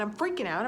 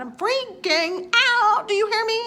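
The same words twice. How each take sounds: First: Said in the usual way. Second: "I'm freaking out" yelled high and stretched; panicked shout. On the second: Real, not acted. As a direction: cry it out like you're losing it. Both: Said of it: "freaking out with a capital F".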